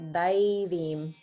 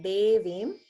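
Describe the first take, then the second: First: The first vowel sounds like 'eye'. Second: The first vowel sounds like 'ay' in 'day'. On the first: The speaker calls it right. "that's an A I, that's an I sound" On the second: The speaker calls it wrong. "instead of pronouncing it like Devim"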